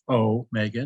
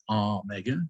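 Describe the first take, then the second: First: The first O is a long vowel. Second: The first O is a short vowel. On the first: The speaker calls it right. "omega should be pronounced omega" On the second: The speaker calls it wrong. "not omega"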